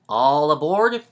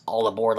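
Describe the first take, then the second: First: Loud, rising, drawn-out call; conductor's shout. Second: Said in the usual way. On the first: Acted. Reading the blurb's last words as the guy shouting, loud call. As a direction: holler it out like a train conductor. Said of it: "like the guy's just shouting it". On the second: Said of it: "kind of spells out the words".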